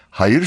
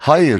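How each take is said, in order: First: "hayır" stressed on "yır"; stress on last syllable. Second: "Hayır" stressed on "Ha"; stress on first syllable. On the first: Announcer shows hayır meaning goodness, last syllable stressed in "hayır". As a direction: put the weight on the final "yır" of "hayır". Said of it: "vurgusu yır hecesindedir". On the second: Announcer explains dictionary stress marks, first syllable stressed in "Hayır". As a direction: put the weight on the opening "Ha" of "Hayır". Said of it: "vurgu H hecesindedir". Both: Shown as a demonstration.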